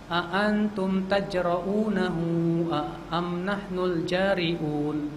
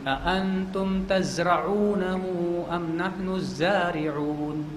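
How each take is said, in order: First: The consonant after ta sounds like j. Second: The consonant after ta sounds like z. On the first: Are you the brave ones, or are we? The speaker calls it wrong. "Dia baca karena nggak fasih" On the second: Are you the ones who make the plants grow, or are we? The speaker calls it right. "Yang harusnya bacanya begini"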